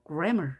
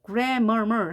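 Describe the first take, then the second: First: Said in the usual way. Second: "grammar" wrongly said as gram-mer-mer; gram, mer, mer, each sounded out; doubled M mistake. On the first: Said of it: "한 번만 읽는 거죠". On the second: Shown as a demonstration. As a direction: overdo the M in "grammar", repeating mer. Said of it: "하는 것이 아니라".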